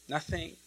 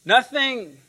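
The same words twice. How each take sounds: First: "Nothing" much softer, rising; hushed nothing. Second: "Nothing" stressed, falling firmly; emphatic nothing. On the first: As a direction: drop to a soft "Nothing". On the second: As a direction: land "Nothing" hard. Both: Shown as a demonstration. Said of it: "what nothing means in Greek".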